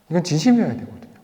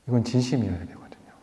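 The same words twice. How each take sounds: First: Said in the usual way. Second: Low, soft near-whisper; hushed emphasis. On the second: Real, not acted. Preacher telling the congregation it must be sincere, hushed. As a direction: drop to a hush on the key point. Hushed first take, then repeated.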